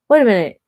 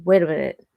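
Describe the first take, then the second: First: Louder, higher sudden halt; sudden realization. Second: Said in the usual way. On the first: Retold or imitated. Realizing the gift-giver ghosted her, exclaiming. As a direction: stop yourself short as it clicks. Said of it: "I was like".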